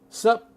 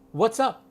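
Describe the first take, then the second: First: It is cut down to one syllable. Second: It is contracted to two syllables. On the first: "Even shorter" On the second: "You have to say what's up"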